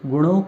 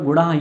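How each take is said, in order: First: The word ends in an 'o' vowel. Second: The word ends in a breathy 'h' sound. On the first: The word is joined to the next by sandhi. "गुणों के स्थान पर" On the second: The word stands alone, split from the next. "गुणः यहाँ भी विसर्ग संधि है"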